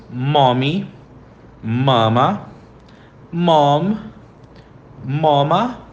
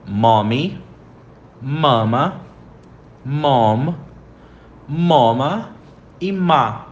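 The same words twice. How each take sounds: First: Mommy, mama, mom, mama each said slowly with pauses; teacher models each word for repeating. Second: Mommy, mama, mom, mama said again slowly, one by one; slow repeated model. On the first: (palavras ditas devagar para repetir) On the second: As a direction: say them again for the class to repeat. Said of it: "Então, repetindo". (repetição lenta das palavras) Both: Shown as a demonstration.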